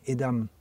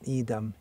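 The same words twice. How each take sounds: First: The first vowel i is short. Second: The first vowel i is long. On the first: The speaker calls it right. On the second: The speaker calls it wrong.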